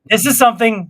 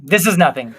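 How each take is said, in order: First: Emphatic bit. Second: Lower bit. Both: Shown as a demonstration. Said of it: "I'm doing those bits too".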